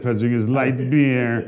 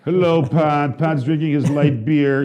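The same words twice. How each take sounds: First: Slow, lightly put-on delivery; repeated put-on voice. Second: A hint of a slow put-on voice; odd put-on voice. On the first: Shown as a demonstration. Host repeats the line for his cohost, slow and put-on. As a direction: say it slowly again in that voice. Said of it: "Like, like that". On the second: Real, not acted. Host teasing the producer, in a lightly put-on slow voice. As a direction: drawl it out a little, slowly. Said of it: "I don't know why I'm talking like that".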